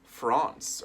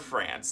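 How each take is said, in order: First: The word is said in a non-American way. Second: The word is said in an American way.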